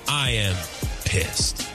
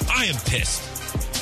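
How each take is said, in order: First: It is said calmly and with low energy. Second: It is said loudly and with intense energy.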